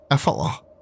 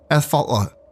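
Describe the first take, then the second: First: The name is said carefully and seriously. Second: The name is said carefully and seriously.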